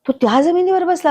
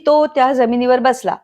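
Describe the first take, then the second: First: It is said with emphasis and emotion. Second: It is said flatly without emphasis. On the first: He should have sat somewhere else. The speaker calls it right. "किती फरक झाला त्याच्यामध्ये" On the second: It carries no particular meaning. The speaker calls it wrong. "असं म्हटलं तर त्याला काहीच अर्थ राहिला नाही"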